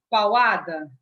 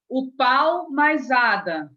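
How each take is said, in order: First: "pauada" run together as one word, loud; awkward joined word. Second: "O pau mais ada" very slow and louder, each part separated; parts said apart. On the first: (junte "pauada" numa palavra só, soando estranho) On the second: (separe bem "pau mais ada", devagar e mais alto) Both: Shown as a demonstration. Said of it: "ficou estranho".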